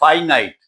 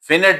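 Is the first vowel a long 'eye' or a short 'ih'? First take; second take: eye; ih. First: The first vowel is a long 'eye' sound. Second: The first vowel is a short 'ih' sound. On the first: The speaker calls it right. "This this word is pronounce pronounce as फाइनाइट" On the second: The speaker calls it wrong. "फिनिट ना पढ़ना"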